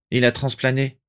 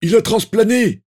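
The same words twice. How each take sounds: First: Restrained, slightly raised reporting voice; let slip. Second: Loud, very high yell; urgent shouted reply. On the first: Lupin tells the family the three have fled, restrained. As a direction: break the news without shouting. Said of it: "lâcha Rémus Lupin". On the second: A Death Eater answers his comrade mid-battle, loud high shout. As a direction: shout the news back at once. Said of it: "Un autre répondit sans tarder". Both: A narrator's reading.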